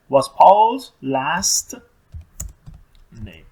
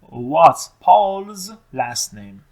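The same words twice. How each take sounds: First: Very slow, loud start, fading at the end; slow dictation. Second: Very slow, stretched question; slow model question. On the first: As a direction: dictate it word by word. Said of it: "حرف بزرگ رو یادمون نره". (دیکته کردن آهسته و کلمه به کلمه) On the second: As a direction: drag each word out for learners. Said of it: "حتماً پرسیده". (پرسش کشیده و خیلی آهسته) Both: Shown as a demonstration.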